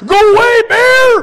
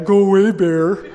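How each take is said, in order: First: It is said in an urgent, serious tone. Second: It is said in a mocking, joking tone.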